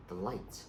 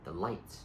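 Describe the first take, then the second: No difference in how they are said.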